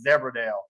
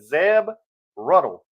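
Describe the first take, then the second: First: The name ends with a 'dale' sound. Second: The name ends with a 'ruddle' sound. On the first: The speaker calls it wrong. "I was all this time I was pronouncing it Zebradale" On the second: The speaker calls it right. "she said Zeb Ruddle"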